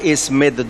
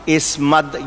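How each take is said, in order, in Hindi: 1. दूसरे अक्षर में 'i' स्वर है। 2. दूसरे अक्षर में 'a' स्वर है। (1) "दोनों तरह बोला जाता है" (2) "दोनों तरह बोला जाता है"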